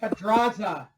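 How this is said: It is said in a put-on white-guy accent.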